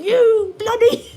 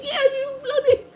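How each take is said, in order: First: High, loud, slow mock British shout of you bloody; mock British yell. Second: High, much louder mock British shout of bloody, played for laughs; joining the mock British yell. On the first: British people screaming at each other, mocked as a yell. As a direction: ham up a British insult, dragging it out. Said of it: "screaming at each other". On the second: Streamer mocking British people by shouting along. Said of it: "And I'm like".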